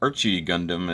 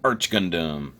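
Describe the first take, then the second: First: The first word has two syllables, ending in 'ee'. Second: The first word has one syllable, no final vowel.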